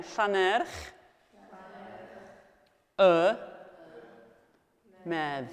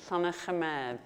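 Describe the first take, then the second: First: "Llanerch", "Y", "Medd", each alone with a long pause after; split up word by word. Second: Said in the usual way. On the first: Shown as a demonstration. Teacher leading class repetition, "Llanerch. Y. Medd" piece by piece. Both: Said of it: "So I've split it up for you".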